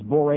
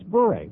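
First: The name is said as one syllable, like 'bore'. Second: The name is said as two syllables, like 'bury'. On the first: The speaker calls it wrong. "Rimmer says bore" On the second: The speaker calls it right. "It's a very simple two-syllable word"

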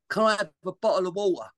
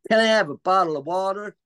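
First: It is spoken in a Cockney accent. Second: It is spoken in an American accent. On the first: "when you've got a Cockney accent, you don't say the T's" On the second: "in an American accent?"

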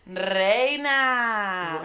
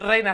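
First: It is said with sassy, confident attitude. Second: It is said flatly, without attitude.

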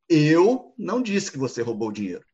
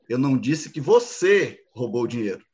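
First: The stress is on "Eu". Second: The stress is on "você".

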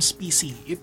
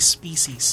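First: The word is said without a final s sound. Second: The word is said with a final s sound. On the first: The speaker calls it wrong. "do not use the term species" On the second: The speaker calls it right. "It is actually species, okay? Parati po siyang merong S"

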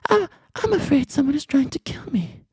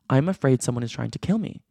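First: It is said in a put-on imitation voice. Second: It is read in a plain, natural voice.

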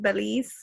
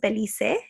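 First: The name is said with English pronunciation. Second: The name is said with Spanish pronunciation. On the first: "I hope that in English it's Belize" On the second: "in Espanol is Belice"

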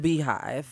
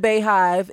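First: The first syllable sounds like 'bee'. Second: The first syllable sounds like 'bay'. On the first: The speaker calls it right. "It is the Beehive" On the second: The speaker calls it wrong. "We are not the Bayhive"

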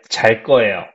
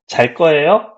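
First: The voice falls at the end, as a statement. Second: The voice rises at the end, as a question.

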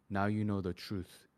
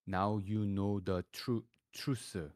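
First: It is said in an American accent with a slight Korean touch. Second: It is said in a strong Korean accent, broken into separate syllables. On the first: The speaker calls it right. "So then you have to kind of American it up. ... you kind of add a slight Korean accent" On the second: The speaker calls it wrong. "if I write it down in Korean, it would sound like"

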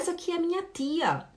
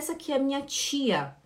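First: Recife accent, with a plain t in tia. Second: Belém accent, with a ch-like t in tia.

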